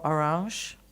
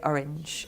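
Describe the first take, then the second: First: The name is pronounced the French way. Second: The name is pronounced the British English way. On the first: "I'm saying it correctly, aren't I?" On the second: "if I was in the U K, I'd say Orange"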